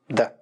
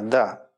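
First: The word is cut short, dry and abrupt. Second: The word is said in a plain, neutral way. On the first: "А можно сказать отрывисто, сухо" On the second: "Можно сказать нейтрально"

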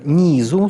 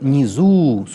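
First: The stress is on the first syllable. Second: The stress is on the second syllable. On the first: "с ударением на «и»" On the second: "с ударением на «у»"

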